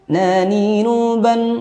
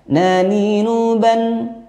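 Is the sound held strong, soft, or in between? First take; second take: in between; in between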